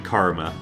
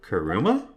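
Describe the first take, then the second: First: The name is said with two syllables. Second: The name is said with three syllables. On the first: The speaker calls it right. "it's probably Karma" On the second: The speaker calls it wrong. "prob it's probably not pronounced that way"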